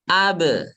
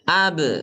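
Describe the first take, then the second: Both takes have the same delivery.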